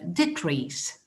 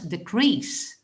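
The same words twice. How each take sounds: First: The stress is on the first syllable. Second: The stress is on the second syllable. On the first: It is used as a noun. "For the noun, the stress is on the first syllable" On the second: It is used as a verb. "When it is the verb, you're going to pronounce decrease"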